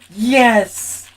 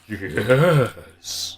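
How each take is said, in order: First: It is said in his normal voice. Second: It is said in a Beast Wars Megatron voice.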